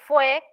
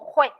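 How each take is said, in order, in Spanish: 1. La palabra empieza con sonido F. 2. La palabra empieza con sonido J. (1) "con F de foca" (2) "digo jue"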